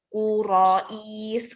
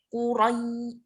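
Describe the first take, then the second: First: The word is said too slowly. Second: The word is said too quickly. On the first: "Kalau terlalu lambat" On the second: "kurai itu terlalu cepat"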